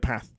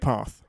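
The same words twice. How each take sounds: First: It is said in a northern English accent. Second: It is said without a northern English accent. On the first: This is how people in another region say it. "So in the north of England, they'd say path" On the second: This is how the speaker normally says it. "I say path"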